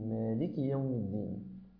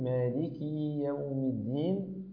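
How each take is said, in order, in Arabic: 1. تبقى الحركة بعد الكاف قصيرة. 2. تُشبَع الحركة بعد الكاف فتصير ياءً. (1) "وإنما قل" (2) "واحذر من أن تشبع الكسرة حتى يتولد منها ياء، فلا تقول"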